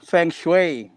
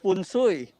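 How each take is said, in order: First: It begins with f and sounds like 'fung shway'. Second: It begins with f and sounds like 'fun sui'. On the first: "in Mandarin, it's" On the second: "In Tagalog, it's"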